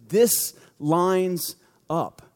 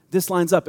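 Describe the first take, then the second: First: Slow amazed. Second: Said in the usual way. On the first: Shown as a demonstration.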